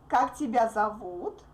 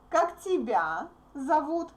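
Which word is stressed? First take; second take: зовут; тебя. First: The stress is on зовут. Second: The stress is on тебя.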